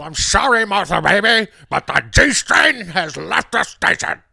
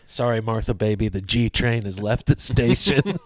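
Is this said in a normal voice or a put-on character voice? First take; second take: character; normal. First: It is said in a put-on character voice. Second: It is said in the speaker's ordinary voice.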